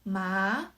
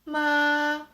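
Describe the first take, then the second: First: The pitch rises from middle to high. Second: The pitch stays level and even. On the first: "The second tone is" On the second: "The first tone is"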